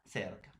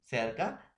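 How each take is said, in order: First: "cerca" dropping low and softer, closing the pair; second take of "cerca", falling and quieter. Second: "Cerca" with the tune lifting at the end, as if listing; first take of "Cerca", rising. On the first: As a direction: say "cerca" with a low final fall. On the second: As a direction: say "Cerca" and let it rise, first of a pair. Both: Shown as a demonstration. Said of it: "Pronunciación igual e idéntica".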